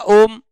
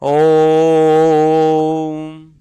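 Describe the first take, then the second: First: The o vowel has its normal length. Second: The o vowel is stretched out very long. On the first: "ये तो normal हो गया" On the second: "मैंने इसको अधिक खींच दिया"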